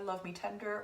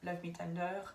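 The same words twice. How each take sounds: First: It is said with an English accent. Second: It is said with a French accent.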